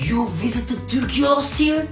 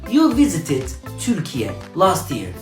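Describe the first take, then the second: First: It is said with question intonation. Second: It is said with statement intonation. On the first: It asks whether the fact is true. "Sen geçen sene Türkiye'yi ziyaret mi ettin?" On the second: It states a fact. "Sen geçen sene Türkiye'yi ziyaret ettin"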